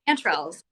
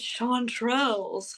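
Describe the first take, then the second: First: The first syllable sounds like 'chance'. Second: The first syllable has an 'o'-like vowel. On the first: This is the speaker's own way of saying it. "chance. Uh, there's none of this oh in there" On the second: Someone else says it this way. "like with a twist"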